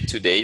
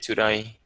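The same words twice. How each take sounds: First: It is said in a non-Australian accent. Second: It is said in an Australian accent. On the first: "They don't say today" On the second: "they say today"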